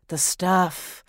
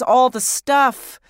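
First: Said in the usual way. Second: All the stuff slowed and pushed louder, weight on all; emphatic drawn-out. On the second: Acted. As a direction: drag out all the stuff in exasperation. Exasperated repeat of all the stuff.

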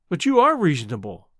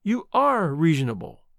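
First: Put-on girl assures the woman, stressing "are". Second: "are" leaned on again, firmly; girl insists again, stressing "are". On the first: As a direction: insist on "are". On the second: Acted. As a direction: repeat it, leaning on "are". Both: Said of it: "I tell you".

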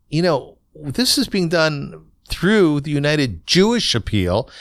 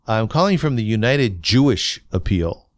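First: Jewish leaned on higher and slower, pointedly; pointed stress on Jewish. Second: Said in the usual way. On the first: Retold or imitated. Caller reminding Bayer who is asking, stressing Jewish slowly. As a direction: make them hear the word Jewish, said slow and heavy. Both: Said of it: "why did I say Jewish with such an accent".

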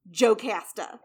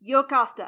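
First: Jocasta with a hard English J, "joe-CAST-a"; wrong pronunciation. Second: Jocasta with a Y sound, "yo-KAH-sta"; correct pronunciation. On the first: Teacher showing how not to say the name, mispronounced Jocasta as joe-KASS-tuh. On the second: Teacher giving the proper name, Jocasta pronounced yo-KAH-stuh. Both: Shown as a demonstration. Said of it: "It is not pronounced Jocasta".

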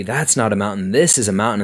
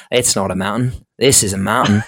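First: Light Australian movie-quote imitation; Crocodile Dundee. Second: Put-on pathetic Australian accent, louder at the end; hammed-up bad Aussie movie quote; Crocodile Dundee. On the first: Colby's mountain joke retold to the host, lightly voiced Australian accent. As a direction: quote it with a hint of Aussie accent. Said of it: "like, Crocodile Dundee". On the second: Friend parroting the mountain joke back, pathetic Australian accent. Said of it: "how pathetic my Australian accent was".

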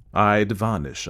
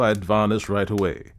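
First: "I'd vanish" pressed home, "vanish" weighted; stress on vanish. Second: Said in the usual way. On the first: A narrator's reading. Clubman insisting the ghost leave, firm stress on "vanish". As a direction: hammer the word "vanish" firmly. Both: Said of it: "driving it home".

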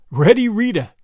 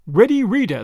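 First: Thrilled, louder repeat of the nickname; higher, punched out in mild rapture; delirious. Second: Said in the usual way. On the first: A narrator's reading. Albert relishing the crook's nickname, deliriously excited. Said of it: "repeated Albert deliriously".

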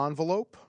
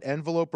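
First: "envelope" opening on ON; ON-velope pronunciation. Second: "envelope" opening on EN, as in "end"; EN-velope pronunciation. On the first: Host offering the tie-break's second option, "envelope" said ON-velope. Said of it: "I say envelope". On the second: Host asking Patrick to break the tie, "envelope" said EN-velope. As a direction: say "envelope" with a short EH first. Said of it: "break the tie". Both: Shown as a demonstration.

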